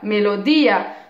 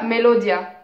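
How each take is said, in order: First: The final two vowels are split into separate syllables. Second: The final two vowels glide together in one syllable. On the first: The speaker calls it right. "on dit tio, tia, melodia" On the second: The speaker calls it wrong. "on ne dit pas melodia"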